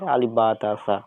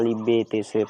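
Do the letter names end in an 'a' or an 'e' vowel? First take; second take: a vowel; e vowel. First: The letter names end in an 'a' vowel. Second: The letter names end in an 'e' vowel. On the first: This is how the letters are read in Arabic. "সেটা আরবিতে আলিফ বা তা সা" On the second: This is how the letters are read in Urdu. "উর্দুতে আলিফ বে তে সে পড়া হয়"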